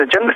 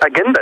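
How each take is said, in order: First: "agenda" with an English j sound; English pronunciation. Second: "agenda" with a hard g, as in German; imitated Swiss-German "agenda", hard g; German accent. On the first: Retold or imitated. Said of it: "It's the same word". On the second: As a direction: say "agenda" German-style, g as in "get". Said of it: "that was my German accent".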